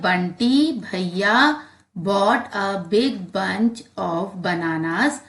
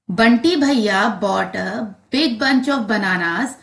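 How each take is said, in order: First: It is read slowly. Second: It is read a bit faster.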